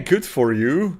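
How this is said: It is said in a mild, sarcastic tone. The praise is mockingly insincere. "that's how I use it"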